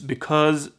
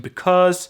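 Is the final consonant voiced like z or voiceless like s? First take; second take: voiced; voiceless. First: The final consonant is a buzzing z sound. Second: The final consonant is a hissing s sound. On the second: "so that tur- turns into s"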